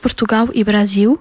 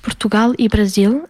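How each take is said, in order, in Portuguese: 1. Sotaque brasileiro, o L final soa como U. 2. Sotaque europeu, o L final mantém-se como L. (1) "no português do Brasil diz-se Portugal e Brasil. As palavras que terminam com L pronunciam-se com U" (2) "No português de Portugal diz-se"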